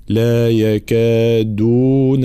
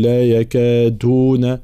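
First: "لا يكادون" drawn out with a clear hard d; voiced, firm dal. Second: "لا يكادون" with d weakened toward t; slow "يكادون", its "د" half devoiced; dal blurred toward ta. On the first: Teacher correcting the dal, "يكادون" with firm voiced d. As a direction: recite "يكادون" slowly, full voiced "د". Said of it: "الجهر والشدة في حرف الدال". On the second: Teacher showing the mistake, "يكادون" between d and t. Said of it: "بين الدال والتاء". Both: Shown as a demonstration.

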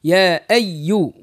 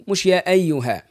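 First: Slow يا أيو with the ي held doubled; slow teacher demo of the yaa shaddah. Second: يا أيها with a light, undoubled ي; the careless form without shaddah; the version to avoid; wrong light yaa. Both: Shown as a demonstration.

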